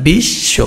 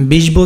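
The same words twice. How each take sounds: First: বিশ্ব drawn out as "bish-sho"; doubled sh. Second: বিষব said "bish-bo"; wrong sounded ব. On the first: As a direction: hold the sh double in বিশ্ব, no second b. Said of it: "তালব্য শ কয়বার হবে?". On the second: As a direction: put an audible b after the sh in বিষব. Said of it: "বিষব তো হবে না". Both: Shown as a demonstration.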